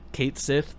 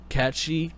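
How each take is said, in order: First: The name is said as two separate words. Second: The name is said as one blended word. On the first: "depends on how you want to pronounce it" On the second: "Katshi is the correct way to pronounce it"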